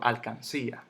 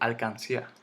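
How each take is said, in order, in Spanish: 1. El acento está en la sílaba 'cí'. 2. El acento no está en la sílaba 'cí'. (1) "En la si" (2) "yo no digo alcancía"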